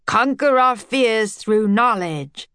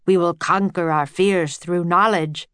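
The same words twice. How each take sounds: First: Slow, eager echo of "Conquer our fears through knowledge"; enthusiastic repeat. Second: Said in the usual way. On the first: A narrator's reading. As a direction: savour each word like a new motto. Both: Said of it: "repeated his thought with enthusiasm".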